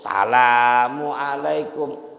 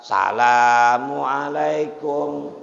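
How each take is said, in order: First: The opening 'as' sound is dropped. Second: The opening 'as' sound is dropped.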